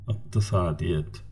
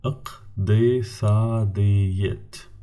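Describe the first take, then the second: First: Said in the usual way. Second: İktisadiyet drawn out very slowly, syllable by syllable; very slow teacher model; slow model word. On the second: Shown as a demonstration. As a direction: stretch İktisadiyet for learners. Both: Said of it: "examples for the words with the five syllables".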